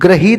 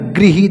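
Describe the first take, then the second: First: The first syllable sounds like 'gra'. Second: The first syllable sounds like 'gri'. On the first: The speaker calls it wrong. "ग्रहित नहीं होता है" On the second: The speaker calls it right. "री की मात्रा होती है"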